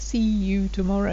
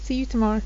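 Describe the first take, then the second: First: The word 'you' is pronounced fully and clearly. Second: The word 'you' is shortened and merged in. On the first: "you get the C and the Y sound for you, but it's not always" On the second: "we merge this"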